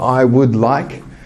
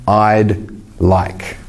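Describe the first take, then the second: First: Both words are said in full, unjoined. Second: The two words are joined into one short syllable. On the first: "instead of saying" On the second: "shorter form"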